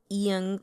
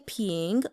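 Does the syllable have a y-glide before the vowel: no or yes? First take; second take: yes; no. First: The syllable is said with a y-glide before the vowel. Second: The syllable is said plainly without a glide. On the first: "they kind of young, young, like peepyung" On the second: "you can technically just say ping"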